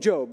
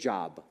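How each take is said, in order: First: The vowel is long, as in 'robe'. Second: The vowel is short, as in 'rob'. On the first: The speaker calls it right. "she carefully told me it's the book of Job" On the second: The speaker calls it wrong. "I didn't know how to pronounce it"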